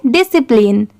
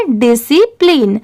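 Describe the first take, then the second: First: discipline quickly as one joined word; brisk, blended discipline; said at speed. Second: Syllable-by-syllable model. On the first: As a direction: run discipline together without breaks. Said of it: "इसे speed में पढ़ेंगे". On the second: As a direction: stretch out discipline part by part. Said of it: "अब इन तीनों को मिला देंगे". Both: Shown as a demonstration.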